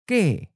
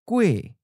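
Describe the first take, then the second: First: The word ends in the vowel e. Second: The word ends in the vowel ue. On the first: This is the coastal dialect form. "Pen Hai Kyung has a E" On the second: This is the inland dialect form. "Pen Lai Kyung uses UE as a final"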